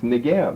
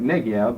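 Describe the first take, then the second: First: The stress is on the last syllable. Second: The stress is on the first syllable. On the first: The speaker calls it right. "but it's Negev. Hebrew's accent on the last syllable, not the first" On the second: The speaker calls it wrong. "people say it Negev"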